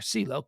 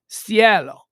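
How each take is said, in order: First: The name is pronounced like the English 'CeeLo'. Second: The name is pronounced the Spanish way. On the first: This is how the household casually says it. "we just call her [name] because we're a bunch of gringos" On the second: This is the name's proper form. "It's Cielo. ... like heaven or sky in Spanish"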